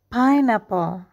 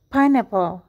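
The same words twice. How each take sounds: First: The word is said slowly. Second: The word is said quickly in one beat. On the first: "Kita berlatih perlahan dulu ya" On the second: "Sekarang dengan lebih cepat, satu ketukan"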